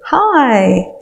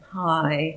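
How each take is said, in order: First: It is said with enthusiasm. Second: It is said without enthusiasm.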